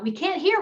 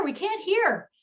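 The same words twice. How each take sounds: First: "hear" rising, much higher, called out from the crowd; mock audience call. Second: "hear" falling, much higher, called out insistently; mock audience call. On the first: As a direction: imitate the front rows calling up, ending on an upturn. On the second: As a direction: repeat the call, letting "hear" drop firmly. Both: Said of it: "The people in the front rows call out".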